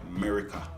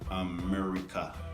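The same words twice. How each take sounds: First: The word is clipped short, Jamaican pronunciation. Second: The word is said in full, standard pronunciation. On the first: The speaker calls it wrong. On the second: The speaker calls it right.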